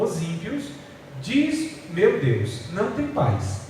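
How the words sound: Pauses set off the phrase 'diz meu Deus'. God says the wicked have no peace. The speaker calls it right. "a leitura correta"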